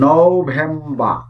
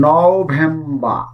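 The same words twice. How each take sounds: Both takes have the same delivery.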